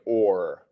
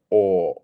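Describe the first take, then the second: First: The word ends with an audible R sound. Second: The word ends without any R sound. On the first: The speaker calls it wrong. "in British English we don't say or" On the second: The speaker calls it right. "We're not pronouncing the R. It's just or"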